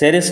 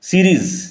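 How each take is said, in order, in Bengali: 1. নামটি 'sa' ধ্বনি দিয়ে শুরু। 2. নামটি 'see' ধ্বনি দিয়ে শুরু। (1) "স্যারেস ভুল উচ্চারণ" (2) "উচ্চারণ লক্ষ্য করো"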